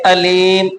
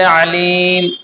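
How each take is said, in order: First: It begins with a plain glottal catch. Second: It begins with a tight throat consonant. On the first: It means painful. The speaker calls it wrong. "आइन की ना निकाल करके हमजा पढ़े" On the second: It means one who knows. The speaker calls it right. "आइन से अलीम"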